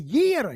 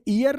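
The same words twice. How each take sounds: First: The word starts with a 'y' sound. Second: The word starts with a plain vowel sound. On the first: The speaker calls it right. "ईयर यह की sound है" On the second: The speaker calls it wrong. "ये ईयर नहीं है"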